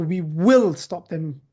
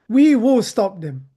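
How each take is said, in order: First: "will" slow and pressed; stress on will. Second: Loud, slow, "we" punched hard; slow and defiant, leaning on we; defiant emphasis. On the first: Shown as a demonstration. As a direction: hit the word will, slowly. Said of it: "So the will here is, is, is, has an emphasis". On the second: Retold or imitated. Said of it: "Bilal ibn Abdullah said".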